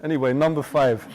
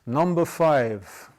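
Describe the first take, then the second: First: Said in the usual way. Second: Put-on slow, weighty announcement like an Old Testament prophet; solemn proclamation. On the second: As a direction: announce it slowly and gravely. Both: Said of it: "I feel like the Old Testament".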